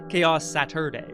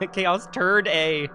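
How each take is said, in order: First: The second part sounds like 'Saturday'. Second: The second part sounds like 'turd day'. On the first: The speaker calls it right. "you gotta pronounce it Chaos Saturday" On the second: The speaker calls it wrong. "Not Turd Day"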